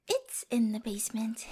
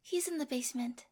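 First: "It's" hit firmly, lower voice; stress on IT'S. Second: Said in the usual way. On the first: Acted. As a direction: correct yourself by leaning on "It's". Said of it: "I said it's".

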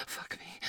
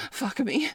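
First: Unvoiced breathy whisper; hushed plea. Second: Said in the usual way. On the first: Whispered, then voiced.

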